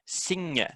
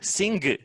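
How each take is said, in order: First: The word ends with a nasal ng sound. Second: The word ends with a hard g sound. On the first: The speaker calls it right. "it's not a g, that it's a nya sort of sound" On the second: The speaker calls it wrong. "The biggest mistake you get here is they go sing"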